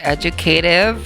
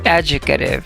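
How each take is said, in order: First: The stress is on the third syllable. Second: The stress is on the first syllable. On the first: "that's American English. ... sa U S naman, it's on the K, the third syllable" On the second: "nasa first syllable ang stress sa U- UK"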